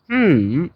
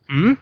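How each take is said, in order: First: The pitch dips low, then rises. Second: The pitch rises from middle to high. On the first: "third is" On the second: "Ryzen is"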